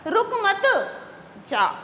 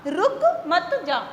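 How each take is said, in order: First: There is a pause after मत. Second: There is a pause after रुक.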